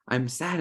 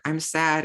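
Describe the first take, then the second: First: "I'm sad" said simply, settled and accepting; calm acceptance. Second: "I'm sad" pitched higher, fretting and troubled; mock distressed. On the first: Retold or imitated. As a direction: offer the sadness without resisting it. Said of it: "But no, it's like". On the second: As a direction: fret over being sad at all. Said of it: "many times we're like".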